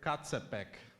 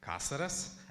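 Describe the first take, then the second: First: The name is said ending in a k sound. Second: The name is said ending in an s sound. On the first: The speaker calls it wrong. "So read it like in Latin" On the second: The speaker calls it right. "for new people, it's Caceres"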